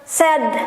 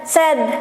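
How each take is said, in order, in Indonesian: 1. Vokalnya digabung cepat jadi satu suku kata. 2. Vokalnya digabung cepat jadi satu suku kata.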